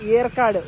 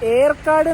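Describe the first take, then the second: First: The name begins with a y sound. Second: The name begins with a plain vowel sound. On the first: This is the English spelling's version. "ഇംഗ്ലീഷിലാണെങ്കിൽ ... വൈ ആണല്ലോ" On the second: This is the local Tamil name. "ഈ സ്ഥലത്തിന്റെ ശരിക്കുള്ള ഉച്ചാരണം"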